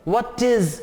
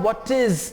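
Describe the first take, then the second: No difference in how they are said.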